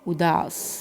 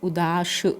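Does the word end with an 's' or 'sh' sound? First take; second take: s; sh. First: The word ends with an 's' sound. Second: The word ends with a 'sh' sound. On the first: The speaker calls it right. "यानी स sound है" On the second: The speaker calls it wrong. "श नहीं आता है"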